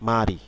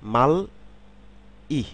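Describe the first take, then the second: First: The consonant links into the vowel as an r sound. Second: Each syllable is said separately with an l sound. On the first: "এখানে কিন্তু আমি উচ্চারণ করছি মারি" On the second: "আমি যদি সিলেবাল অনুসারে একটু উচ্চারণ করি"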